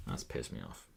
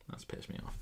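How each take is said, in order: First: Low, very soft grumble; quiet, deep grumble of annoyance; annoyed mutter. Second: Voiceless whisper to yourself; hushed, whispered grumble; annoyed whisper. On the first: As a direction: mutter it low, half to yourself. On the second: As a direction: whisper the complaint under your breath. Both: Real, not acted.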